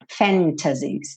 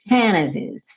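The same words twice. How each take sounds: First: The T in the middle is clearly pronounced. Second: The T is dropped, American style.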